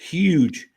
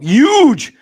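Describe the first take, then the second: First: It is said in a plain accent, with the H. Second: It is said in a Boston/New York accent, without the H.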